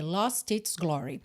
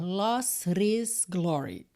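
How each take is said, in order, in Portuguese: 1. O T é uma oclusiva nítida, com soltura clara. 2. O T é um flap suave, com ligação fluida. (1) "a gente mantém o T com o som de T" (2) "Imagina tentar dizer lost his glory. Não facilitaria em nada"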